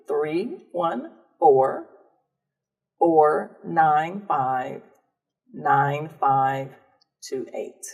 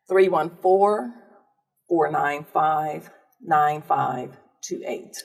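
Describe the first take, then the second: First: The number is said more slowly. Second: The number is said at a normal, quicker pace.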